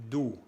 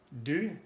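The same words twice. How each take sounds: First: DU said as doux, back oo; French ou sound. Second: DU with rounded front vowel; French u sound. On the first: Teacher contrasting two vowels, back oo. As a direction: say DU like Spanish du. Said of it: "y el sonido U". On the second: Teacher contrasting two vowels, fronted French u. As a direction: say DU as French u, tongue forward. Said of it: "los sonidos U". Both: Shown as a demonstration.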